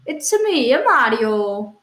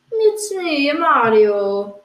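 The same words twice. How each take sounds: First: Italian cartoon hero, drawn-out last word; Mario. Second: Mario. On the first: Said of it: "my normal impression of Mario". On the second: Acted. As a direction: do an Italian person imitating the game hero. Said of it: "impression of an Italian person doing an impression of Mario".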